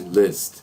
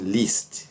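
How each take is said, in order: First: The vowel sits between an 'i' and an 'a'. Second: The vowel is a pure, tense 'ee' sound. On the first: The speaker calls it right. "é um meio termo entre eles" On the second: The speaker calls it wrong. "aqui você não vai dizer assim"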